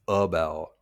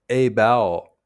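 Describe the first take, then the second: First: The unstressed vowel is reduced to a schwa. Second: The unstressed vowel keeps its full quality. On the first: "American English is a vowel with a schwa" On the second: "In Indian English"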